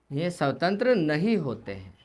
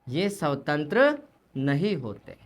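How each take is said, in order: First: Said in the usual way. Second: Slow, lower, स्वतंत्र pressed hard and drawn out; teacher dwelling on स्वतंत्र word by word; stress on स्वतंत्र. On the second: Shown as a demonstration. (धीमे स्वर में स्वतंत्र पर ज़ोर)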